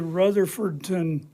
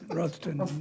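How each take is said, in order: First: All syllables of the name are said in full. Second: The name is squeezed into two short syllables. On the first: This is how an outsider would say it. "you would say Rutherfordton" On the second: This is how the locals say it. "they pronounce it like Ruffton or something"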